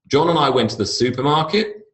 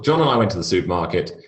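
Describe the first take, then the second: First: The voice rises at the end. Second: The voice falls at the end. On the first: It is up talk on a statement. The speaker calls it wrong. "So every sentence goes up" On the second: It is a plain factual statement. The speaker calls it right. "When I'm making declarative statements, I go down"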